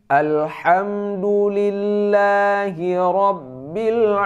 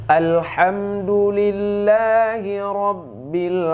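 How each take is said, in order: Both takes have the same delivery.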